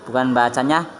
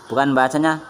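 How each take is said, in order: The two takes are said the same way.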